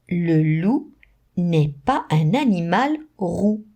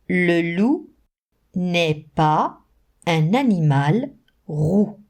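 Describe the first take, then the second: First: The sentence is read at a faster pace. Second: The sentence is read at a slower pace.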